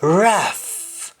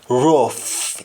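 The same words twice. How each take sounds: First: "Rough" said raf, with "ah"; English-style "Rough", open "ah" vowel; English pronunciation. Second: "rough" said rohf, with O; Jamaican pronunciation. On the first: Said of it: "in English". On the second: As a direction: say "rough" the Patois way, as rof. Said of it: "in Jamaican". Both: Shown as a demonstration.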